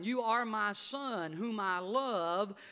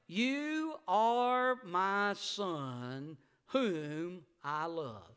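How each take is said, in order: First: Said in the usual way. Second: Slow, solemn heavenly voice; stretched, reverent divine voice; voice of God. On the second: Acted. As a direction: speak it slowly like God from heaven. Voice from heaven quoted.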